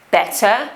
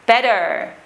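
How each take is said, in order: First: Better as "bet-tuh", clear T, no R; received pronunciation. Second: Better with weakened middle T and strong final R; West Country pronunciation. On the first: Teacher giving learners an example, received pronunciation. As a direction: say better the RP way, T sounded. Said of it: "received pronunciation". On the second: Teacher showing Hagrid's accent, West Country pronunciation. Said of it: "normally becomes what we call a glottal". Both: Shown as a demonstration.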